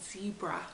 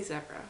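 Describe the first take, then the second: First: Zebra with a long ee, as in Z; "zebra" with first vowel as in "see"; long-e pronunciation. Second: Zebra with a short e, as in Zed; "zebra" with first vowel as in "zed"; short-e pronunciation. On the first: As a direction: say "zebra" starting like "zee". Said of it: "my friends still use Z and zebra". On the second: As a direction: say "zebra" to rhyme with Debra. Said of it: "I say zebra". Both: Shown as a demonstration.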